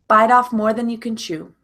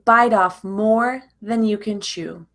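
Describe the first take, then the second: First: The phrase is said very quickly, words run together. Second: The phrase is said at a normal, careful speed.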